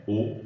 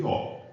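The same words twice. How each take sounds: First: O as a closed vowel, like ô; O pronounced ô, not ó. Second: O as an open vowel, like ó; O pronounced ó, not ô. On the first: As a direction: say O with the closed ô sound. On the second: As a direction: say O with the open ó sound. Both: Shown as a demonstration. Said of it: "podem ser abertas ou fechadas".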